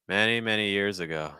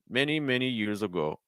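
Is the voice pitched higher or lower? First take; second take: lower; higher. First: Lower pitch with a fuller, freer breath. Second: Higher pitch with a tight, restricted breath. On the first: The speaker calls it right. "The second time, I used my diaphragm" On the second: The speaker calls it wrong. "the pitch was a little higher, and it sounded a little bit more restricted in terms of breath"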